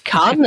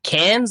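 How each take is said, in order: First: Cannes is said with a French-style pronunciation. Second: Cannes is said with an English-style pronunciation. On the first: The speaker calls it right. "but it's Cannes" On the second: The speaker calls it wrong. "I pronounce it Cannes the way I say it"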